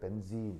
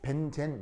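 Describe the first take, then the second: First: The second syllable has a long 'ee' vowel. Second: The second syllable has a short 'e' vowel. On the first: This is the original English pronunciation. "원래 발음할 때는 벤진이 돼" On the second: This is a Japanese-derived Konglish pronunciation. "콩글리시로 벤젠 이렇게 쓰는 거예요"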